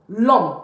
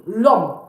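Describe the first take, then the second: No difference in how they are said.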